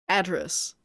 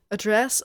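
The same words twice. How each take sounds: First: "Address" stressed on the first syllable, AD-dress; "Address" as the noun, AD-dress. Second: "Address" stressed on the second syllable, a-DRESS; questioning "Address" as the verb, a-DRESS. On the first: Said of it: "the noun". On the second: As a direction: ask "Address" as a-DRESS, rising. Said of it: "the verb". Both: Shown as a demonstration.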